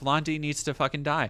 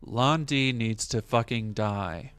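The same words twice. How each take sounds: First: It is said in the speaker's ordinary voice. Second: It is said in a flat, monotone Ryo impression.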